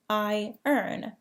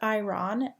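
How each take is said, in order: First: The r comes after the vowel: eye-ern. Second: The r comes before the vowel: eye-ron. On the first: The speaker calls it right. "It sounds like I earn" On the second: The speaker calls it wrong. "Iron is not pronounced iron, as you might expect"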